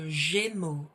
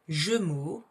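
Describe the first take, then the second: First: The first vowel sounds like a clear 'ay'. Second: The first vowel sounds like a plain 'uh'. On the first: The speaker calls it right. "we say le Gémeaux. So that's an E sound" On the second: The speaker calls it wrong. "here we don't say le Gémeaux"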